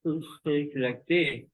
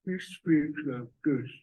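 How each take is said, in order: First: Top-jaw-forward mouth distortion; big sister's odd-mouthed speech; upper jaw forward. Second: Words distorted by a thrust-out lower jaw; small brother's odd-mouthed speech; chin forward. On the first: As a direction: speak with the upper jaw pushed out. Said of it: "the upper jaw is forward". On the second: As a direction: speak with the chin jutting out. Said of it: "the chin is forward". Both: Shown as a demonstration.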